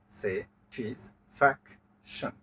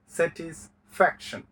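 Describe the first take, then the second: First: "satisfaction" slow, low and softer, in four separated parts; split into syllables. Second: Said in the usual way. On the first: Shown as a demonstration. Teacher counting four syllables, "satisfaction" slowly split with pauses. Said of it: "চারটা পাওয়া গেছে". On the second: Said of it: "আমরা সেটা বলবো polysyllable".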